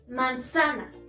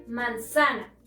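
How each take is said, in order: First: The stress is on the middle syllable. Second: The stress is on the middle syllable.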